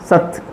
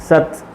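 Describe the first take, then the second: The two takes are said the same way.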